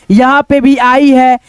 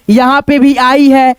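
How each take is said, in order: Both takes have the same delivery.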